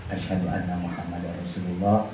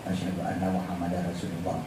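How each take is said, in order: The two takes are said the same way.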